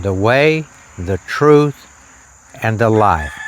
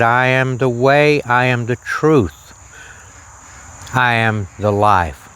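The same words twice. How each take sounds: First: Each phrase said separately, with the peak on "truth"; stress on truth. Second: Said in the usual way. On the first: Shown as a demonstration. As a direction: lean on "the truth" between "The way" and "and the life". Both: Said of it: "The truth is right in the middle of that statement".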